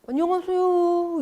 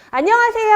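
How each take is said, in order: First: The greeting sounds flat, without a smile. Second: The greeting sounds bright, with a smile. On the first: The first impression gets off to a poor start. The speaker calls it wrong. "문 열고 안녕하세요 이러고 들어가면요 상대방이 어, 예 이렇게 반응해요" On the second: The other person feels good and welcomes you warmly. The speaker calls it right. "입꼬리 올리시면서 안녕하세요 하고 들어가야 목소리 또 달라지고"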